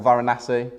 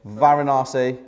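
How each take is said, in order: First: Varanasi with a short flat "a" in NA, as in "nasty"; short-A pronunciation. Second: Varanasi with a long "ah" in NA, like "nar"; long-A pronunciation. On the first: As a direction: say Varanasi as "va-ra-NASS-ee". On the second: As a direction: say Varanasi as "va-ra-NAH-see". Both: Shown as a demonstration. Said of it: "however you pronounce it".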